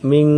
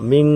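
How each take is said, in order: No difference in how they are said.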